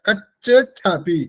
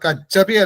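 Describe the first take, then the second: First: A ch stop comes before the aspirated ch. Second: The middle consonant is said once. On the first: The speaker calls it right. "കച്ച് എന്ന് പറയണം" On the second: The speaker calls it wrong. "കച്ഛപി അല്ല"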